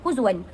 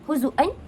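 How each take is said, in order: First: The word has no glottal stop. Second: The word has a clear glottal stop. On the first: "tanpa hamzah" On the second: "bacaan hamzah"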